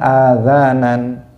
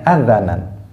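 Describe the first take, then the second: First: The vowel is held long. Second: The vowel is kept short. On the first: The speaker calls it wrong. "Atau dibaca panjang azanan. Nah, itu juga uh, juga keliru" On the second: The speaker calls it right. "Mestinya azanan"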